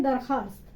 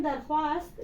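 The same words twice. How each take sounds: First: "दरखास्त" with no w sound after kh; silent vao. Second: "दरख्वास्त" with the written w sounded after kh; spelling pronunciation. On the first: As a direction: drop the written vao in "दरखास्त". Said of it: "लेकिन पढ़ते हैं दरखास्त". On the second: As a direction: sound the silent vao in "दरख्वास्त". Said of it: "तो इसको लिखते हैं दरख्वास्त". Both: Shown as a demonstration.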